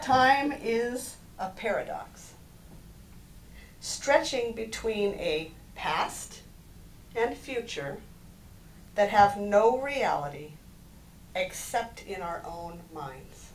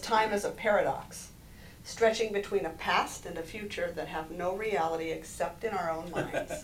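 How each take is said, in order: First: It is said slowly. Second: It is said at normal speed.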